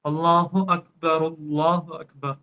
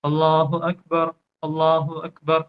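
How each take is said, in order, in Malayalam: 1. ഈ ഭാഗങ്ങൾ നിർത്തലില്ലാതെ ചേർത്താണ് പറയുന്നത്. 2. ഓരോ ഭാഗവും വ്യക്തമായ ഒരു നിർത്തലോടെ വേർതിരിക്കുന്നു. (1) "ചേർത്ത് പറയുകയാണെങ്കിൽ" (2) "രണ്ടും പിരിച്ച് പിരിച്ച് നിർത്തി നിർത്തി നമുക്ക് പറയാം"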